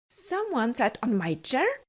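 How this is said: It is growled in a big, gruff voice.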